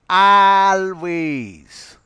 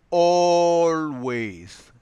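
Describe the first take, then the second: First: The first vowel is an open 'ah' sound. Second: The first vowel is a rounded 'aw' sound. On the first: The speaker calls it wrong. "if it was spoken by a native from Kerala, that person would pronounce this word always" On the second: The speaker calls it right. "it is not the O A sound, but the O sound that has to be articulated"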